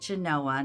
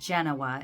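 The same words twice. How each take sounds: First: It is said the local Nevada way. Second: It is said the Italian city way. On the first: It names the town in Nevada. "Here we pronounce it Genoa" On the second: It names the city in Italy. "not Genoa as in Italy"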